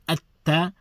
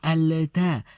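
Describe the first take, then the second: First: The L merges into a doubled T. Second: The L is pronounced before the T. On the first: The speaker calls it right. "So we say atta" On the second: The speaker calls it wrong. "we do not say alata... it's that is very cumbersome"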